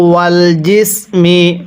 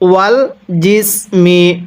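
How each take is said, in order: The two takes are said the same way.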